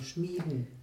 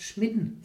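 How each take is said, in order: First: The first vowel is held long. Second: The first vowel is cut short. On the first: "Also lang schmieden" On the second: "wo man es kurz sagt"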